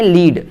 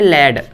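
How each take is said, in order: First: The vowel is a long 'ee' sound. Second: The vowel is a short 'eh' sound. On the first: To guide others. "इसको हम बोलते हैं लीड" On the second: A kind of metal. "पहले को अपन क्या बोलते हैं? लेड"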